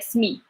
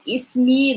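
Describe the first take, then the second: First: The word starts directly with the consonant. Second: The word starts with an extra vowel sound. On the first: This is the local way, which is faster. "like the rest of Morocco, they would say like smi" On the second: This is closer to Modern Standard Arabic. "they would say like ismi"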